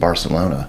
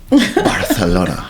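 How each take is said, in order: First: The c is said as an s sound. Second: The c is said as a th sound. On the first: The speaker calls it wrong. "You mispronounced Barcelona" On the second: The speaker calls it right. "Got to get that T H in there"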